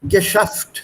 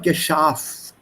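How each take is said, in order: First: The stressed vowel is said short. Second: The stressed vowel is said long. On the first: The speaker calls it right. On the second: The speaker calls it wrong. "not geschafft"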